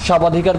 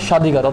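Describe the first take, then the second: First: A 'b' sound is pronounced after the first consonant. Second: No 'b' sound is pronounced after the first consonant. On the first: The speaker calls it wrong. "স্বাবাধিকার পড়ি না" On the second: The speaker calls it right. "বর উচ্চারণটা হয় না"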